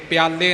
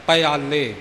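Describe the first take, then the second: First: ਪਿਆਲੇ run together as "pyaa-le"; mistaken two-syllable reading. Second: ਪਿਆਲੇ opened out as "pa-yaa-le"; three-syllable reading. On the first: Teacher showing what not to read, ਪਿਆਲੇ squeezed to "pyaa-le". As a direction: say ਪਿਆਲੇ with p and y fused. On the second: Teacher giving the reading to use, ਪਿਆਲੇ as "pa-yaa-le". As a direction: say ਪਿਆਲੇ with a short a after the p. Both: Shown as a demonstration. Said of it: "ਪਿਆਲੇ ਨਹੀਂ ਪੜਨਾ".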